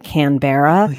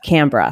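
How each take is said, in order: First: It is said with an American pronunciation. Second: It is said with an Australian pronunciation. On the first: The speaker calls it wrong. "Americans pronounce it Canberra" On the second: The speaker calls it right. "That's how Australians pronounce it"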